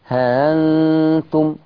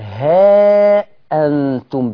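First: The vowel is short and the glottal stop softened. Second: The vowel is long and the glottal stop full. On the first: "ورش بيحذف الألف ويسهل الهمزة" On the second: "بيجيب ألف ويحقق همزة"

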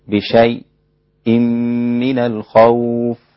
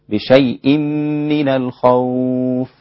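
First: A brief stop comes just before the glottal stop. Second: The words run on without any stop. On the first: "له السكت على الساكن قبل الهمز" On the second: "وله عدم السكت أيضا"

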